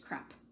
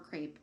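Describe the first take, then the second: First: The vowel does not rhyme with drapes. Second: The vowel rhymes with drapes. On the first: The speaker calls it right. "It's crepe" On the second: The speaker calls it wrong. "please don't say pecan or crepe"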